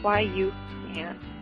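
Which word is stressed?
can. The stress is on "can".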